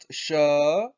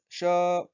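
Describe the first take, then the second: First: The pitch rises through the word. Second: The pitch stays flat and level. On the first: It means time. "when the tone goes up" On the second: It means lion. "when the tone is just one straight line"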